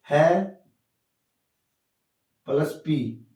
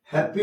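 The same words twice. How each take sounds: First: "है", then "पी", each sound cut apart by a long pause; broken into syllables. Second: Said in the usual way. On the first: Shown as a demonstration. Teacher showing that the word has two sounds, broken into syllables. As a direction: say "है" alone, stop, then "plus पी". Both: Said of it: "cut cut करके बना".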